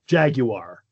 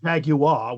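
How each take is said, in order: First: The final R sound is pronounced. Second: The final R sound is dropped. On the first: "according to the company, Jaguar" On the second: "Brits would say Jaguar without the R ending"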